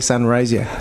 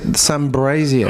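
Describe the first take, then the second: First: There is no 'b' sound before the 'r'. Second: A 'b' sound is added before the 'r'. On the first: This is the standard way to say the name. The speaker calls it right. "he couldn't say Sunrazier" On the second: This imitates how someone else mispronounced it. The speaker calls it wrong. "he used to pronounce it Sunbrazier"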